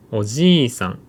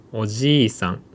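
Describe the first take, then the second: No difference in how they are said.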